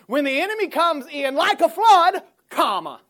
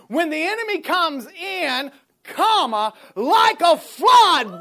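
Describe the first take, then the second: First: The break comes after 'flood'. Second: The break comes after 'comes in'.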